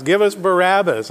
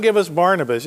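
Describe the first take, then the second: First: "Barabbas" said ba-RAB-us, no n; right name. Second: "Barnabas" said with the n, BAR-na-bus; wrong name. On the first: Preacher correcting the class on the crowd's cry, right name. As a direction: give "Barabbas" its stress on RAB. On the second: Preacher correcting the class on the crowd's cry, wrong name. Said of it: "Yeah, it was". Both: Shown as a demonstration.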